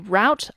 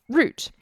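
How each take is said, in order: First: It is said the American way, rhyming with 'out'. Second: It is said the British way, like 'root'.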